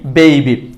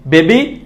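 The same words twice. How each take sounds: First: Falling "bei-bi" for বেবি; correct pronunciation. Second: Rising "be-bi" for বেবি; no glide in বেবি; wrong pronunciation. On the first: Teacher closing the drill, falling বেবি with ei. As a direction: slide into i after e in বেবি. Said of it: "সঠিকটা হচ্ছে". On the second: Teacher repeating the contrast, rising বেবি with plain e. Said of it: "ভুলটা হচ্ছে". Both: Shown as a demonstration.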